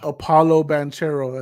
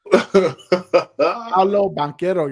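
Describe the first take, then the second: First: The first name begins with an extra vowel. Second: The first name begins directly with a consonant. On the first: The speaker calls it wrong. "not Apollo Banchero as Marco called him last week" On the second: The speaker calls it right. "Get it right"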